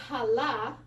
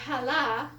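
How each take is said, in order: First: Challah with a soft h and the chet cut off, slowly; soft h wrong. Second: Challah drawn out slowly with a soft h. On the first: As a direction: say challah with just a breathy h. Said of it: "you cut off the chet". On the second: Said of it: "it means that one". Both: Shown as a demonstration.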